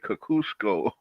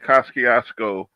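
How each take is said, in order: First: The name is said with a Polish-style pronunciation. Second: The name is said in the local American way. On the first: This is a newer attempt at the original pronunciation. The speaker calls it wrong. "the new ones, will try and say" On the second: This is the long-established local way of saying it. The speaker calls it right. "the old school say"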